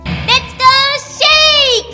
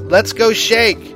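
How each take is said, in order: First: It is said in a put-on imitating voice. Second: It is said in his plain voice.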